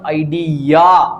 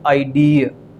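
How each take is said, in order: First: The ending is said as a single 'ya' sound. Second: The ending is said as a gliding 'ee-uh' sound. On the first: The speaker calls it wrong. "It is not आइडिया" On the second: The speaker calls it right. "It is आइडिया"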